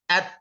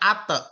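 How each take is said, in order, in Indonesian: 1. Konsonan terakhir berhenti dengan bersih tanpa pantulan. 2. Konsonan terakhir dilepaskan dengan pantulan bergema. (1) "tidak mantul" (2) "tidak ate"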